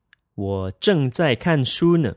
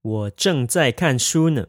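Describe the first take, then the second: First: Said in the usual way. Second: Slower, carefully spaced drill; slow and clear model sentence; slow practice repeat. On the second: Shown as a demonstration. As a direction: say it slowly for learners to copy. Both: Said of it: "You would say".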